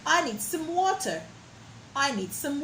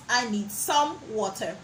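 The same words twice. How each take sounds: First: I need some water, some reduced; weak some. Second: I need some water with some stressed; strong some, wrong. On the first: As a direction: run some in quickly. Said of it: "So you could say". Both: Shown as a demonstration.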